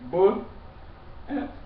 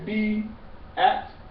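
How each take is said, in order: First: The first part is said as the short sound 'buh'. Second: The first part is said as the letter name 'bee'. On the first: The speaker calls it right. "We say bu at" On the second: The speaker calls it wrong. "we don't say be at"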